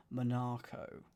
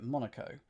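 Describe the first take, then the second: First: "Monaco" as mon-AR-co, stress on the middle; "Monaco" with a stretched middle syllable; Eurovision-style Monaco. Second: Said in the usual way. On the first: Retold or imitated. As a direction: say "Monaco" like an old Eurovision host. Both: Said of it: "as they say in early versions of the Eurovision".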